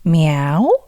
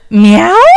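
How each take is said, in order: First: It is said softly. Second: It is said loudly.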